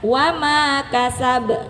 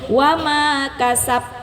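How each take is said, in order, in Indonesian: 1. Bunyi b terakhir berakhir dengan pantulan pendek. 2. Bunyi b terakhir berhenti tanpa pantulan. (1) "Yang benar" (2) "Salah ya"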